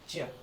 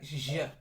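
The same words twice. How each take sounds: First: The j is pronounced as in English. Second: The j is pronounced as in French. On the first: The speaker calls it right. "it's just je" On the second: The speaker calls it wrong. "It's not like the French je"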